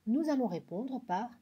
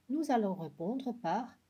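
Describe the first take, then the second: The two takes are said the same way.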